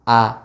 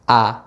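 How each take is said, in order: The two takes are said the same way.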